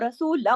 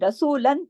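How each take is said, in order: First: The word ends with a nasal m sound. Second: The word ends with a clear n sound. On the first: This is the form after the sounds merge. "वो रसूलम हो गया" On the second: This is the form before the sounds merge. "रसूलन जो था"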